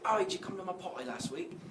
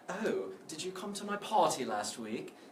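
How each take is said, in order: First: It is said in an ordinary British accent. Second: It is said in a posh upper-class British accent. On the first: The speaker is a normal person. "people who are just normal people, and they might say" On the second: The speaker is a very rich person. "very rich people might say"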